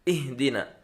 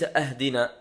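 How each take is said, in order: First: The word begins with a short i. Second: The word begins with a short a. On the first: The speaker calls it right. "بكسر الهمزة" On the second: The speaker calls it wrong. "وليس أهدنا بفتحها"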